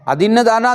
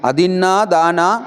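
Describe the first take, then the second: First: The first word ends in a short vowel. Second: The first word ends in a long vowel. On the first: The speaker calls it wrong. "अदिन्न दाना गलत थे" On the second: The speaker calls it right. "अदिन्ना। ऐसे उच्चारण करना चाहिए"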